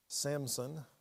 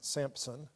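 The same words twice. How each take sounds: First: The name is said without a P sound. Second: The name is said with a P sound. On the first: The speaker calls it right. "there's no P in that name" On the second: The speaker calls it wrong. "not Samson"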